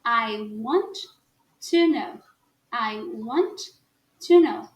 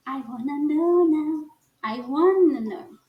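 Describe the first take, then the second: First: "I want", pause, then "to know"; separated words. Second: "wanna" linked with no T, drawn out slowly; run together. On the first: Teacher contrasts the unlinked form for learners, spoken separately. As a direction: break after "want" with a clear T, then "to know". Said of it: "a gente fala separado". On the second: Teacher demonstrates connected American English, words run together. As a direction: stretch "wanna know" as one joined flow. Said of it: "Tudo junto". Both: Shown as a demonstration.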